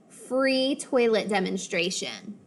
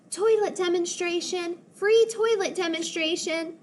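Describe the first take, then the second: First: Said in the usual way. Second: High, sing-song sales call. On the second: Acted. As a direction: call out the offer like a barker. [name] calling out the offer.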